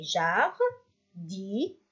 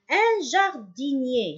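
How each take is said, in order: First: "Jardinier" slowly as jar, di, nier; slow "Jardinier", each syllable standing alone; split into syllables. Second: Said in the usual way. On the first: Shown as a demonstration. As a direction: sound out "Jardinier" with pauses to count. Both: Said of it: "On a combien?".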